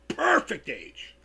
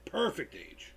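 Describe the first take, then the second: First: Slow, stretched, put-on voice; odd drawn-out voice. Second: Said in the usual way. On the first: Real, not acted. Streamer stretching a phrase in a funny voice. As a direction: drag out perfect in a strange voice. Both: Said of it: "I don't know why I said it like that".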